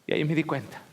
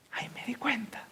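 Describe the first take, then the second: First: Said in the usual way. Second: High unvoiced whisper of realisation. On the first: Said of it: "repeated as whisper". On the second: Shown as a demonstration. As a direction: hush the repeat to a breath. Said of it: "repeated line". (susurro de revelación)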